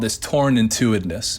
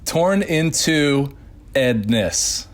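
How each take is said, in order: First: The phrase is said at a normal conversational pace. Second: The phrase is said slowly and carefully.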